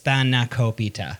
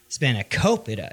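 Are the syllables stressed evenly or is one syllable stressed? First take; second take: even; one syllable. First: All syllables carry even, equal stress. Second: One syllable carries stronger stress than the others. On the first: The speaker calls it right. "everything is accented evenly" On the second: The speaker calls it wrong. "it's not spanakopita"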